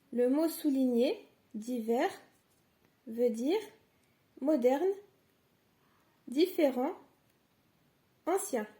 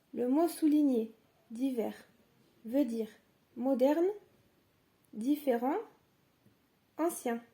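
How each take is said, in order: Both takes have the same delivery.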